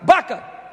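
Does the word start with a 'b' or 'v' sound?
b. The word starts with a 'b' sound. This is how people from the north say it. "é como a rapaziada do norte"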